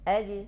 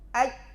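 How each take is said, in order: First: The final j is released with a slight bounce. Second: The final j is held tight without release. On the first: The speaker calls it right. "datang qalqalah memudahkan" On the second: The speaker calls it wrong. "Aslinya begini jim tuh"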